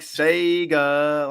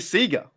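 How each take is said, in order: First: Sega is said the American way. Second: Sega is said the Australian way. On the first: "You won't hear me pronounce it like Sega. Like you" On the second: "We say Sega"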